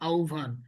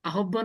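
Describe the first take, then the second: First: The middle cluster is said as 'ubh'. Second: The middle cluster is said as written, 'hb'. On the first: The speaker calls it right. "আসলে এটা উচ্চারণ কি" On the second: The speaker calls it wrong. "Not আহ্বান বলা যায় না"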